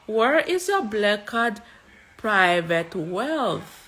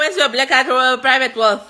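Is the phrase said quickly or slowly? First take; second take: slowly; quickly. First: The phrase is said slowly and deliberately. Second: The phrase is said quickly and rushed. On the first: The speaker calls it right. "That is the correct way to say it" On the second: The speaker calls it wrong.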